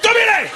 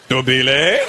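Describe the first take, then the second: First: It is said loudly, starting big. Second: It is said with a questioning rise.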